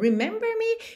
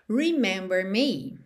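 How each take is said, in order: First: It is said with question intonation. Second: It is said as a statement, a command.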